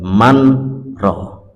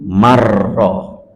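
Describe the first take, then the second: First: The n is pronounced separately before the r. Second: The n merges into the r without nasal hum. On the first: The speaker calls it wrong. "tidak manro" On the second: The speaker calls it right. "Nunnya masuk di ro tanpa tanpa dengung"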